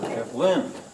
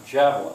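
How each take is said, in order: First: The stress is on a later syllable. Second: The stress is on the first syllable. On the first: The speaker calls it wrong. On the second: The speaker calls it right. "Which one's stressed? The first one"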